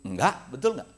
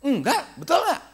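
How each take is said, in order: First: Put-on a flat, offhand teen denial; plain quoted denial, voice barely changed; sulky child's denial. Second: Same denial pitched much higher with a rising end; hammed-up high child's denial; higher mock denial. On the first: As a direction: brush off the parent with a quick no. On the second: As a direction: mimic a defensive kid, squeaky and rising. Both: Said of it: "Begitu kan?".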